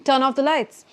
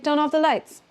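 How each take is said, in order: No difference in how they are said.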